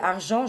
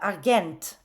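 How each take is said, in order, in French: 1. La fin est nasale, avec un t muet. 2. Toutes les lettres se prononcent, et ça finit par un t. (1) "c'est marqué argent" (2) "je lirais euh, Argent"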